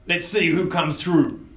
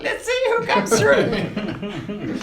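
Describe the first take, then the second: First: Mild higher goblin boss voice; a hint of a goblin boss. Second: High, slow goblin cackle of a voice. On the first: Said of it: "in his goblin voice". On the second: Shown as a demonstration. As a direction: squeal it slowly like a gloating little goblin. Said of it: "which is more like".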